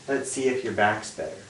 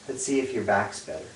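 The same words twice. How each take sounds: The two takes are said the same way.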